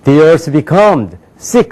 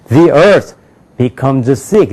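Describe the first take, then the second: First: Very slow, ending on a rise; wrong word-by-word reading. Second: "The earth" then "becomes sick" falling; two linked chunks; sense-group phrasing. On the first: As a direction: plod like a beginner. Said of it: "그렇게 읽잖아요". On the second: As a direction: pause after "The earth", fall on "sick". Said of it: "이렇게 된단 말이에요". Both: Shown as a demonstration.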